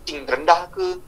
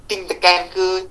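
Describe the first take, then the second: First: TING dropped lower and softer; lowered, lighter delivery on TING. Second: TING pressed and drawn out; stressed TING. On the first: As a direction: let TING sink in pitch. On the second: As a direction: lean slowly on the word TING. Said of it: "Suara sekali pilih". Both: Shown as a demonstration.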